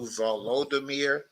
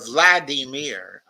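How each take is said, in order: First: The name is said in its Ukrainian form. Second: The name is said in its Russian form. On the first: The speaker calls it right. "which is the Ukrainian pronunciation of the same name" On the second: The speaker calls it wrong. "calling him, quote, uh, Vladimir"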